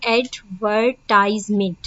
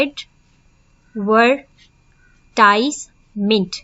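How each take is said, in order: First: Said in the usual way. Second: एडवर्टाइजमेंट said slowly, cut into four syllables; split into syllables. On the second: Shown as a demonstration. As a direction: break एडवर्टाइजमेंट apart syllable by syllable. (एडवर्टाइजमेंट को धीरे-धीरे चार syllables में तोड़कर बोलना) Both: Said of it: "four times इसको cut किया है".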